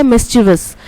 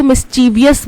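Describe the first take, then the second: First: मिस्चीवियस said in three syllables, mis-chi-vus; teacher gives the right form: मिस्चीवियस as mis-chi-vus; correct pronunciation. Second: मिस्चीवियस said with an extra syllable, mis-chee-vee-us; teacher demonstrates the wrong way: मिस्चीवियस as mis-chee-vee-us; common mispronunciation. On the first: Teacher correcting students after the mistake, clean three syllables. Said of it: "होता क्या है?". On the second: Teacher showing students the common mistake, extra syllable added. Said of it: "कई लोग इसको मिस्चीवियस बोलते हैं". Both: Shown as a demonstration.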